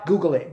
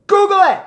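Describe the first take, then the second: First: Said in the usual way. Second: Google it yelled much higher and louder, Google stressed; shouted. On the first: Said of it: "repeated calmly". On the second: Real, not acted. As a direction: bark Google it as a loud high challenge. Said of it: "shouted challenge to the Brit".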